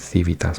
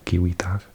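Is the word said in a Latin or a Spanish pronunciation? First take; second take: Spanish; Latin. First: The word is said with a Spanish pronunciation. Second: The word is said with a Latin pronunciation. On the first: "in Spanish you'd pronounce it" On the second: "I think it's Latin"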